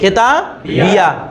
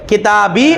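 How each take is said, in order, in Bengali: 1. শেষের ya-এর পরে a স্বর আছে। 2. শেষের ya-তে কোনো স্বর নেই। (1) "জবরও উচ্চারণ করা যাবে" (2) "সাকিন উচ্চারণ করা যাবে"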